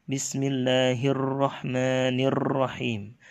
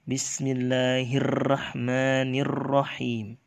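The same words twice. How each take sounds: No difference in how they are said.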